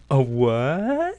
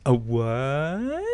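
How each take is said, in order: First: Puzzled rising a what, imitating the actor; flat deadpan question, rising at the end; mock-innocent local asking a what. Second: Quick imitation of a puzzled a what; lightly voiced, rising a what; imitating the deadpan delivery. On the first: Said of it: "delivered in the most perfect cadence and tone". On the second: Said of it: "you couldn't replicate that".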